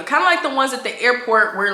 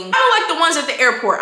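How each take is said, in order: First: Said in the usual way. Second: Louder, higher blurted comparison; shouted aside. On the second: Real, not acted. Telling viewers about the cart, blurted loudly. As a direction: call it out to the audience. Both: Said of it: "I know I keep shouting out".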